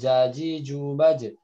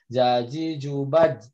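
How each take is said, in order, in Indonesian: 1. Konsonan akhirnya berakhir dengan gema yang memantul. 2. Konsonan akhirnya berhenti datar tanpa gema. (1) "harusnya kan mantul" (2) "masih banyak yang jaji jubaj"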